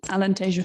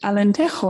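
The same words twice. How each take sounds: First: The name is said with Portuguese-style pronunciation. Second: The name is said with Spanish-style pronunciation. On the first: The speaker calls it right. "So sorry for that" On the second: The speaker calls it wrong. "I mispronounced Alentejo because being here in Spain, I said Alentejo"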